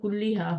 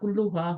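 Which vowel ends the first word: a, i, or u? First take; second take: i; u. First: The first word ends in an i vowel. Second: The first word ends in an u vowel. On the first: "यहाँ जेर होती" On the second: "अगर यहाँ दम्मा होता"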